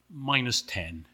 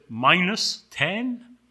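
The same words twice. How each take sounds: First: Said in the usual way. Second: MINUS TEN drawn out, rising at the end; incredulous question. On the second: Acted. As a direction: query "minus ten" slowly in disbelief. Angel disbelieves the answer.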